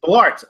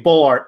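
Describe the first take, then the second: First: Said in the usual way. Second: Ballart said as "Bullart"; "Bullart", with BULL in place of Bal; mispronounced surname. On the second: Shown as a demonstration. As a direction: say Ballart wrongly, first syllable like "bull". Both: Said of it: "sometimes I say Bullart".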